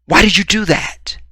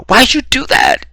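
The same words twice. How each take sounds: First: High, hurt outcry of disbelief; acted disbelief. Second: Very high, loud pained cry. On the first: To girl who went further than expected, high disbelief. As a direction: protest in a high, startled voice. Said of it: "she's gone further than you thought". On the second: Acted. Shot man to the shooter, cry in pain. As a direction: squeal it out as if just shot. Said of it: "it would be in pain though".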